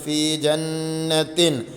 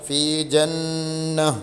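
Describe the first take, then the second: First: The word carries a t sound and continues. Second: The word ends in a stopped h sound. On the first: The reciter joins it to the next word. "കൂട്ടി ഓതുകയാണെങ്കിൽ ... താ ആയിട്ട് തന്നെ നമ്മൾ ഓതുന്നു" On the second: The reciter pauses at this word. "നിർത്തുകയാണെങ്കിലോ ഫി ജന്ന ഹാ ഇന് സുക്കൂൻ ചെയ്ത് നിർത്തും"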